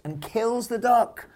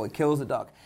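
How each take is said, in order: First: Dramatic shock. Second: Said in the usual way. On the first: A narrator's reading. Shocking twist in the duck story.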